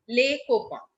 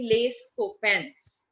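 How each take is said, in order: First: The final s of copains is silent. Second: The final s of copains is pronounced. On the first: The speaker calls it right. "copain is without, spoken without S" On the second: The speaker calls it wrong. "That is why we do not say les copains"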